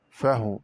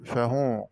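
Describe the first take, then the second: First: فهو with the h unvowelled, "fah-w"; silent-vowel ha. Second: Said in the usual way. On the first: Shown as a demonstration. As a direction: close the first syllable of فهو on h. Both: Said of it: "قرأ بإسكان الهاء".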